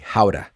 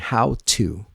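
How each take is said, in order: First: The t is a quick flap, words linked. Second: The t is a full, clear t sound. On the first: The speaker calls it right. "create a new speaking habit by saying how to" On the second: The speaker calls it wrong. "I want you to stop saying how to"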